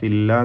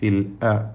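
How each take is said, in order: First: The l runs straight into the vowel, no catch. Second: A clear glottal catch separates l and the vowel. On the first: The speaker calls it wrong. "ഫില്ല ഫില്ല എന്നായി പോരുത്" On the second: The speaker calls it right. "ഹംസ വ്യക്തമായി മുറിച്ചോദനം"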